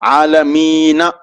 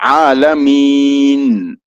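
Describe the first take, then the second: First: The word ends with a final vowel a. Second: The word ends on the consonant n. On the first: The speaker calls it wrong. "आलमीना नहीं पढ़ेंगे" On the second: The speaker calls it right.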